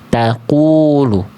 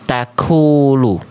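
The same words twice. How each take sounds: First: The k sound has no puff of breath. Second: The k sound has a puff of breath. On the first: The speaker calls it right. "Jangan sampai ada percikan na nafasnya. Harusnya yang B" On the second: The speaker calls it wrong. "yang A itu ada percikan nafasnya"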